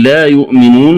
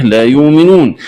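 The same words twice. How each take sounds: First: Said in the usual way. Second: يؤمنون said "yoominoon"; long u in يؤمنون, no glottal stop; hamza as waw. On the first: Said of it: "قرأها بإبدال". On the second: Shown as a demonstration. Teacher showing the variant, يؤمنون with smooth long u. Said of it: "الهمزة واوا مادية".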